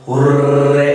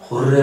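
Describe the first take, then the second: First: It is said with a very long, forceful r. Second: It is said with a short, mild r.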